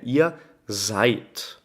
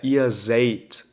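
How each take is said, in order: First: The vowel in seid is said as ai. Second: The vowel in seid is said as e-i. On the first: The speaker calls it right. "o E I é pronunciado como A I" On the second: The speaker calls it wrong. "Não é ihr seid"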